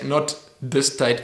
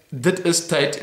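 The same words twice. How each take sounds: First: "dis" with a plain d and slow pace; "dis tyd" said slowly, d not th; wrong pronunciation. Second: "dit is tyd" with a clear t ending; "dit is tyd", is stressed; right pronunciation. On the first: Correcting Afrikaans for viewers, slowly stressing the wrong form. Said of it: "dit is tyd, not dis tyd". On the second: Correcting Afrikaans for viewers, saying the right form. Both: Shown as a demonstration.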